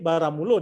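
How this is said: It is pronounced with Minangkabau vowels, ending in -o. This is how a Minang reader reads it aloud. "tapi baramulo dia akan baca"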